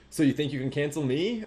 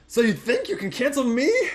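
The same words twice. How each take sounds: First: It is read in the speaker's normal voice. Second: It is read in a high-pitched character voice. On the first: The speaker calls it wrong. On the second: The speaker calls it right.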